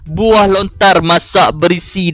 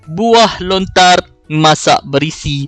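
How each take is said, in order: First: It runs on without any pause. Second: There is a short pause after 'lontar'. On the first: The speaker calls it wrong. "saya tak akan baca macam tu" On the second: The speaker calls it right. "saya akan baca macam tu"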